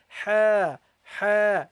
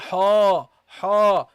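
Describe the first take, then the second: First: The 'ha' is said light and thin. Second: The 'ha' is said heavy and full. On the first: The speaker calls it right. "which should be light because the ha is a light letter" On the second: The speaker calls it wrong. "You don't say ha ha"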